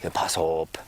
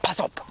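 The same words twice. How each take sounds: First: It is said calmly, without any urgency. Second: It is said urgently, like an alarm. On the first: It sounds like a casual remark. "he didn't say it with anything like that kind of um, urgency at all. He just went" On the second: It warns of sudden danger. "that kind of um, urgency"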